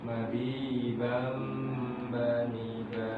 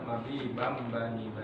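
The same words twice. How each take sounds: First: The nasal sound is held for about two beats. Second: The nasal sound is cut short and rushed. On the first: The speaker calls it right. "harus ditahan kurang lebih dua ketukan" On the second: The speaker calls it wrong. "Tidak boleh terlalu cepat"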